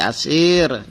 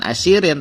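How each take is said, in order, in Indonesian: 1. Kata ini berakhir dengan konsonan mati. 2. Kata ini berakhir dengan akhiran -in penuh. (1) "tapi asir karena waqaf" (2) "bukan asirin"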